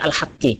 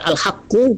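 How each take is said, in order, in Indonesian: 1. Kata ini berakhir dengan vokal 'i'. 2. Kata ini berakhir dengan vokal 'u'. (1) "bisa dibaca al-haqqi" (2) "bisa dibaca al-haqqu"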